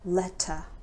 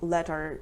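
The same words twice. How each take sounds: First: The word ends with a schwa, no r. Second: The word ends with a pronounced r sound. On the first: "In British English, letter" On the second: "In American English, they say letter"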